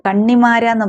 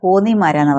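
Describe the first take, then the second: First: The first syllable has an 'a' vowel. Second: The first syllable has an 'o' vowel. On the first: This is how others read the name. "എന്നെ കൺ കണ്ണിമാരാന്ന് പറയും കേട്ടോ, അങ്ങനെയും വായിക്കാം" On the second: This is how people from the speaker's home town say it. "ഞാൻ കോന്നിക്കാരി ആയതുകൊണ്ട് ഞാൻ കോന്നിമാരാന്ന് പറയുന്നത്"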